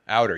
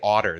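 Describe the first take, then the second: First: The first vowel sounds like 'out'. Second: The first vowel sounds like 'hot'. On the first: This is how an outsider says it. "You say outer" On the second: This is how the locals say it. "They all say otter there"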